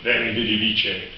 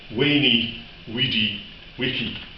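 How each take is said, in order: First: It uses the familiar modern pronunciation of Latin. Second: It uses a reconstructed ancient Roman pronunciation. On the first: This is how people say it today. "the way we do" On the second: This is how it was really said in ancient times. "What he would have actually said"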